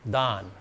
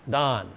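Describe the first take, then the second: Both takes have the same delivery.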